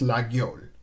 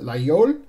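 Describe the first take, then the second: First: The G sound in the middle is pronounced. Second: The G sound in the middle is silent. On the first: This is the northern French way of saying it. "If you're in northern France, they pronounce the G" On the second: This is the southern French way of saying it. "If you're in southern France, they pronounce it"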